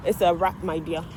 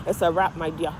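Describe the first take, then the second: No difference in how they are said.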